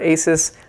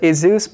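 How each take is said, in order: First: The word is said with an S sound. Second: The word is said with a Z sound. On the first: The speaker calls it right. "I pronounce this word Asus" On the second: The speaker calls it wrong. "A lot of people pronounce it Asus"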